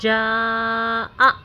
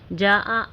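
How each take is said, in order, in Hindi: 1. स्वर से पहले एक तेज़ ग्लोटल कैच आता है। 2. स्वर बिना किसी कैच के सहजता से जुड़ते हैं। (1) "आ पे झटका लें" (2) "ऐसे सिंपली नहीं पढ़ना है"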